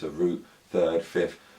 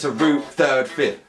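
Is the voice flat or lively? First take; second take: flat; lively. First: The voice is flat, with little pitch movement. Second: The voice is lively, with varied pitch. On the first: The teacher sounds bored and boring. The speaker calls it wrong. "if you're monotone" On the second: The teacher sounds engaged and enthusiastic. The speaker calls it right. "That's what you want happening"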